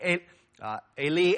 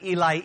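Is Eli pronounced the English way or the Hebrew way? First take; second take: Hebrew; English. First: Eli is said with a Hebrew-style pronunciation. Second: Eli is said with an English pronunciation. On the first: The speaker calls it right. "It would be more like" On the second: The speaker calls it wrong. "in our English, it would read like"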